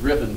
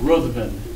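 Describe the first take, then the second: First: The name is said as two syllables, 'Riv-en'. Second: The name is said with a 'th' sound, as spelled. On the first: This is how the person himself says the name. "Riven by his pronunciation" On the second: This is how the written name would be read. "if you read the text"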